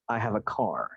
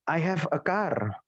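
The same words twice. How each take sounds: First: It is said with a native English accent. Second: It is said with an Indonesian accent. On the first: The speaker calls it right. "Enakan mana sama seperti ini?" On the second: The speaker calls it wrong. "bahasa Inggris dibunyiin seperti orang Indonesia"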